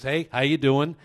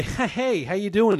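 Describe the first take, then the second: First: Breezy retold hello, only slightly raised; casual greeting. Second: High-pitched, strained mock-friendly hello; put-on greeting. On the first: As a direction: toss it off as if all is normal. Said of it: "As if nothing had happened". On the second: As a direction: greet him in an exaggerated high voice. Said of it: "So I walk over to Mike and I say".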